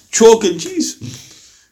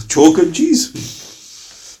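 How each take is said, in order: First: Chalk and cheese drawn out slowly, each word weighted; emphatic contrast. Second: "Chalk and cheese" stretched out very slowly; emphatic contrast. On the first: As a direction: let "Chalk and cheese" land slowly and heavily. Contrast of companions with today. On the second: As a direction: drag out "Chalk and cheese" as a verdict. Closing the same contrast. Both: Real, not acted.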